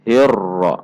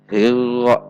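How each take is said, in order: First: The r has a light, moderate trill. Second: The r has no trill at all. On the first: The speaker calls it right. "cara membacanya insyaallah hirra" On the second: The speaker calls it wrong. "Contoh yang dihilangkan"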